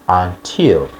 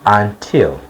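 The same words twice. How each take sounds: The two takes are said the same way.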